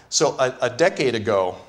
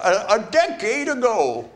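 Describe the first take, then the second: First: Said in the usual way. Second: Put-on high, creaky old-timer telling a tale; old man voice. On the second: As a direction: play it like a grandpa starting a story. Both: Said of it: "I should do the old man voice".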